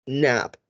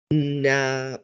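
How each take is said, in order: First: Said in the usual way. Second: "na" drawn out slowly; segmented sounds. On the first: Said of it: "and then blend it". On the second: Shown as a demonstration. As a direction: stretch the sounds of "na" before blending. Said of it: "say the sound segmented".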